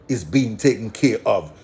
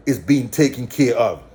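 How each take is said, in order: Both takes have the same delivery.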